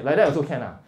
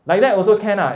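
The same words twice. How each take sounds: First: Said in the usual way. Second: "Like that also can ah" louder and higher, warning fall on "ah"; disapproving. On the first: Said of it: "kind of like you are shocked". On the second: Shown as a demonstration. Teacher shows class the scolding version, disapproving. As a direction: say it as a warning not to do it. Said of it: "Don't do that".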